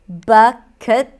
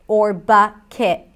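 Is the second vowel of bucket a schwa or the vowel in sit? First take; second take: schwa; sit vowel. First: The second vowel is a neutral schwa. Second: The second vowel is like the vowel in sit. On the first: "the second part could either be a schwa" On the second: "I as in sit. That's how I pronounce it"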